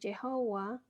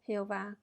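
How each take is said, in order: First: The word begins with a 'y' sound. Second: The word begins with a harsh 'h' sound. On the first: The speaker calls it right. "Jehová con Y sea la pronunciación más correcta" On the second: The speaker calls it wrong. "no Jehová con J"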